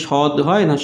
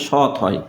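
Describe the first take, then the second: First: সৎ mispronounced as shod; wrong final d. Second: সৎ ending on a voiceless t; final t. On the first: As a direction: end সৎ on a voiced d. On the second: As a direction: say সৎ as shot, with a t. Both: Shown as a demonstration. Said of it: "উচ্চারণটা সৎ".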